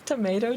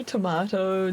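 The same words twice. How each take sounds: First: Tomato with a long "may" middle. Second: Tomato with an open "mah" middle. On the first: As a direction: say Tomato as tuh-MAY-toh. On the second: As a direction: say tomato as tuh-MAH-toh. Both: Shown as a demonstration. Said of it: "they're making fun of my accent".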